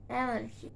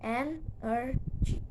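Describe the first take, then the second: First: Said in the usual way. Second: "energy" slowly split into en, er, gy; three slow, separate beats on "energy"; syllable by syllable. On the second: Shown as a demonstration. Teacher showing three syllables, "energy" slowly broken apart. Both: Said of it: "three syllables".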